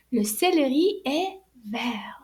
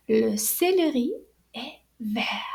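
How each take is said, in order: First: Whispered le céleri est vert, vert said like vair; silent T. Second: Le céleri est vert, vert said like vair without T; repeat after me. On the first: Teacher models the masculine vert, T silent. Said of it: "went back to its original form". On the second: Teacher says le céleri est vert for children to repeat. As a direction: model it for the class to repeat. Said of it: "Can you repeat after me?". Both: Shown as a demonstration.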